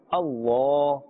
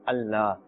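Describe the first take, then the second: First: The L is heavy and thick, with a full mouth. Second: The L is light and thin, with a spread mouth. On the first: The speaker calls it right. "With a full mouth and a thick tone" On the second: The speaker calls it wrong. "we will not pronounce in a flat tone, but a thin tone"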